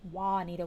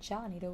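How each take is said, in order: First: The name begins with a W sound. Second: The name begins with a J sound. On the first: "with a W" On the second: "with a J"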